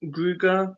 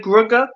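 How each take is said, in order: First: Gruger said with a long "oo" in the first syllable; tentative "Gruger", first syllable like "grew"; long-oo pronunciation. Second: Grugger said with a short vowel in the first syllable; questioning "Grugger", short first vowel; short-vowel pronunciation. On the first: Co-host trying the other reading of the name, long-oo Gruger. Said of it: "I don't know". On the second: Co-host unsure of a character's name, short-vowel Grugger. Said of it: "Is it Grugger?". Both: Shown as a demonstration.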